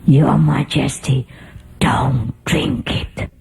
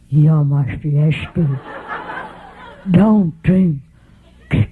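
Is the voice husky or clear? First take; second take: husky; clear. First: It is said in a husky voice. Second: It is said in a clear voice.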